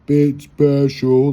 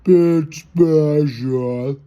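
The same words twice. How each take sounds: First: Very slow, drawn out. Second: Extremely slow, higher, rising; slower slow-mo. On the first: Mocking himself as a bit special, in slow motion. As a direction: stretch each word out in slow motion. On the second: Repeating bit special to himself, even slower. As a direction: drag it out even more. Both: Shown as a demonstration. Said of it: "like slow-mo".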